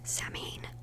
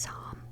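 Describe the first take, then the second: First: It begins like 'Sam', read as spelled. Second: It begins like 'sow', not as spelled. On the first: The speaker calls it wrong. "you did not pronounce that right because I was saying it was" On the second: The speaker calls it right. "but it's"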